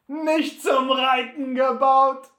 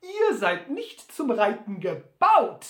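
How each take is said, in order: First: Viel lauter, höher, langsam höhnisch; höhnisches Auflachen. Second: Höher, lauter, langsam; ungläubig. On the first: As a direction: Butler lacht laut und spöttisch auf. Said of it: "lachte Butler auf". (Butler wiederholt Sams Worte höhnisch und laut) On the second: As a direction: gedehnt zweifelnd als Sam. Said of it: "fragte dann ungläubig". (Sam mustert Butler ungläubig) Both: Acted.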